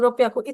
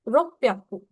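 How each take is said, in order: First: It is said quickly without holding on 'rop'. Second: It is said slowly with a hold on 'rop'. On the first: The speaker calls it wrong. "बहुत लोग इसको ऐसे प्रोनाउंस करेंगे लाइक रोप्याकू रोप्याकू। इतनी जल्दी बाजी में हमें नहीं प्रोनाउंस करना।" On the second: The speaker calls it right. "पहले रोप प पे आपको रुकना है, फिर प्याकू"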